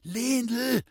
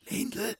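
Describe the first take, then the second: First: Anxious call. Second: Soft call. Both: A narrator's reading. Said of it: "rief er leise".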